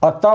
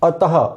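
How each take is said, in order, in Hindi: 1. यह शब्द एक छोटे आधे 'ह' पर समाप्त नहीं होता। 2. यह शब्द एक छोटे, श्वास-युक्त आधे 'ह' पर समाप्त होता है। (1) "इस तरह से अतः अतः बोलेंगे तो ये इसका उच्चारण अशुद्ध हो जाएगा" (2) "विसर्ग का उच्चारण आधे ह के समान होता है। जैसे अतः अतः उच्चारण होगा।"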